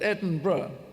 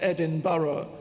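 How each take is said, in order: First: The name is said the local way. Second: The name is said the outsider way. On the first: The speaker calls it right. "That's how you pronounce it" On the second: The speaker calls it wrong. "not Edinburgh"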